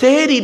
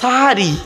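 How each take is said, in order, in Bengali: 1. প্রথম স্বরধ্বনিটি একটি 'e' ধ্বনি। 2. প্রথম স্বরধ্বনিটি একটি 'a' ধ্বনি। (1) "ওটা সেহেরি নয়" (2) "দন্তেশ্বয় আকার"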